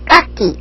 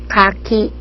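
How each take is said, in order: First: The first consonant is tense and unaspirated. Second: The first consonant is softly aspirated, in between. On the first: The speaker calls it wrong. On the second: The speaker calls it right.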